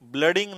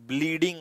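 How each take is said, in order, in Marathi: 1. पहिला स्वर ह्रस्व 'uh' आवाज आहे. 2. पहिला स्वर दीर्घ 'ee' आवाज आहे. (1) "ब्लडिंग नाही" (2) "ब्लीडिंग असतं ते"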